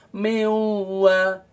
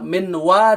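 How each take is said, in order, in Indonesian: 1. N melebur menjadi w yang bersengau. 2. N diucapkan dengan jelas sebelum w. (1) "nun melebur menjadi waw" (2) "minwa dibaca miwa"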